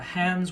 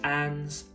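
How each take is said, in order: First: The initial H sound is pronounced. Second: The initial H sound is dropped.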